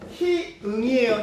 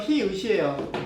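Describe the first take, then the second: First: The word ends in an ng sound. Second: The word ends in a stop sound. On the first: The speaker calls it wrong. "희응 희응 이렇게 하는데 뭔지는 알고 발음을 해야지" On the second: The speaker calls it right. "음끝에서 희읒입니다"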